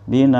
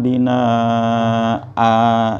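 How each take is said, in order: First: The final vowel is cut short with a jolt. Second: The final vowel is drawn out for two beats. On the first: "bina disentak dikit naber namanya ada ngejut" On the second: "harus dua ketuk"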